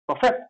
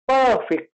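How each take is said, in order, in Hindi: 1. ज़ोर दूसरे अक्षर पर है। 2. ज़ोर पहले अक्षर पर है। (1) "as a verb form then we will say perfect. The stress will come here" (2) "the word stress will come on the first letter"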